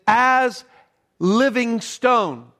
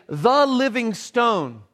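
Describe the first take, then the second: First: "As living stone" said very slowly with weight on "living"; the right reading. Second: "The living stone" said slowly with the article "The" sounded; slow, higher "The living stone" with a definite "The"; the wrong reading. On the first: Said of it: "But what he says is". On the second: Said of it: "he doesn't say". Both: Shown as a demonstration.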